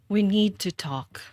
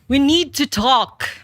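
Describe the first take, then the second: First: It sounds sad, like saying goodbye. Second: It sounds alarmed, as if something terrible happened.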